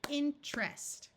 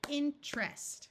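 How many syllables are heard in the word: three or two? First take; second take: two; two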